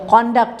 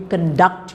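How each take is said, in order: First: The stress is on the first syllable. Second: The stress is on the second syllable. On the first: It is used as a noun. "take the stress on the first syllable if they are used as nouns" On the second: It is used as a verb. "on the second syllable if they are used as verbs"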